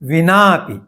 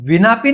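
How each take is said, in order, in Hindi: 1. स्वर को थोड़ा अधिक खींचकर दीर्घ उच्चारित किया जाता है। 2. स्वर ह्रस्व उच्चारित होता है, बिना दीर्घ किए। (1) "इस प्रकार थोड़ा दीर्घ उच्चारण करना है" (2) "विनापि नहीं करना है"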